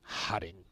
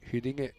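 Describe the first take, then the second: First: The name is said with anglicised vowels. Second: The name is said with Swedish-style vowels.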